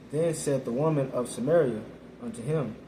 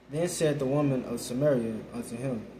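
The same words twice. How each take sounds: The two takes are said the same way.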